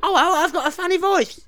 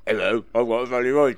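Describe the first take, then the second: First: Very high, silly comic voice; squeaky-high novelty voice; funny voice. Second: Low, silly comic voice; deep novelty voice; funny voice. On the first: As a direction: pitch it right up as a silly character. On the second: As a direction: drop it right down for a daft character. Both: Shown as a demonstration. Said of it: "I'll give you seven voices".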